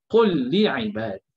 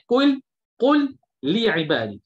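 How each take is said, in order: First: The two L sounds merge into one doubled L. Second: The two L sounds are pronounced separately. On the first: The speaker calls it right. "lam yang pertama kita dah gabung, kita masukkan kepada lam yang kedua" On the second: The speaker calls it wrong.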